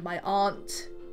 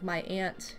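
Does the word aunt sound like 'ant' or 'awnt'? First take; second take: awnt; ant. First: Aunt is said with a broad 'awnt' vowel. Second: Aunt is said with the vowel of ant. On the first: "I don't say my aunt" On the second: "I say ant. I say Annie Ann's an ant. Like my aunt Bobo"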